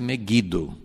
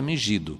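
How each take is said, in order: First: It is pronounced the local original way. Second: It is pronounced the Portuguese way. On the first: This is how the name is said where the place is. "mas a pronúncia é Megido" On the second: This is how Portuguese speakers say the name. "a pronúncia para nós é Megido"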